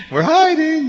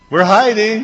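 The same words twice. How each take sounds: First: Put-on very high sing-song kid reply; squeaky child voice. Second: Put-on high, loud little-kid reply; piping up like a kid who thinks he's hidden; childish hiding voice. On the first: A little kid calls out from the closet, very high. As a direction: squeak it out like a small child hiding. Kids answering from hiding. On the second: A child answering from the closet, high and loud.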